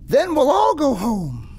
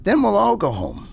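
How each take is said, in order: First: It is said in a higher, cheerier pitch. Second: It is said in a lower pitch.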